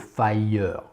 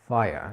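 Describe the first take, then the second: First: An extra vowel is sounded after the R. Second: The word ends at the R, no vowel after. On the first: The speaker calls it wrong. "On ne dira pas a fire. C'est moche et puis c'est mal prononcé" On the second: The speaker calls it right. "Le E est presque silencieux"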